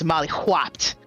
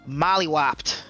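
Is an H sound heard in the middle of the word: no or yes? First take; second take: yes; no. First: The middle is said with an audible H sound. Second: The middle is said without an H sound. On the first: A really bad beating. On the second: An ordinary beating.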